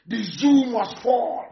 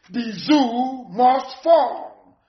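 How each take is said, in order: First: Slow, emphatic declaration; slow slogan. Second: Very slow slogan. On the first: Agitator vowing to topple the state, slow and emphatic. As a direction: spell out the slogan slowly and firmly. Chanted slogan, first take. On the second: Agitator repeating his vow to the crowd, very slowly drawn out. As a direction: drag the slogan out word by word. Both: Real, not acted.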